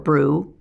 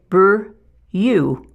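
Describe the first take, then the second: First: The vowel is a plain 'oo' without a glide. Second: The vowel is said with a y-glide, 'yoo'. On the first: The speaker calls it right. "the U sound for brew" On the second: The speaker calls it wrong. "they try to force out that U sound"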